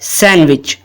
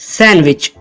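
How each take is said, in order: Both takes have the same delivery.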